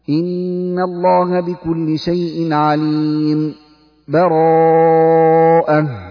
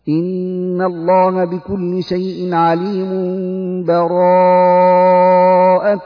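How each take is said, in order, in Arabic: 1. سكتة خفيفة من غير نفس تفصل بينهما. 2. تتصل الآيتان من غير سكت. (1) "سكت لطيفة على آخر الأنفال من غير تنفس" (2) "هذا يسمى الوصل"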